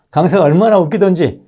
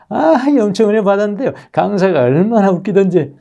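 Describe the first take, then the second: First: Laughing retell. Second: High, chirpy gushing churchgoer; giddy churchgoer. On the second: A churchgoer gushing that the speaker was so funny, high and giddy. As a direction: squeal like a delighted churchgoer. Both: Retold or imitated. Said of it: "이래버립니다".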